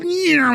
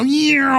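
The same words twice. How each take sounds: First: A much higher, sharp "Yeah" like tiny craft shooting away; playful mock whoosh, pitched well up; orbs whooshing off. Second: Playful mock whoosh sound, pitched up; orbs whooshing off. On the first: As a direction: toss off a high zippy "Yeah" for the little things flying off. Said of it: "all these little things go". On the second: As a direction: imitate little orbs zooming off with a quick "Yeah". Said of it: "like, ten seconds and go".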